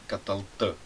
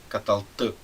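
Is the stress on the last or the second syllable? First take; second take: last; last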